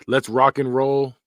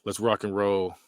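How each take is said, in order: First: Slow, louder cheesy dad hype; mock corny dad. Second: Said in the usual way. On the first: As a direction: ham up the cheesy dad line. Reads saying, then again plainly.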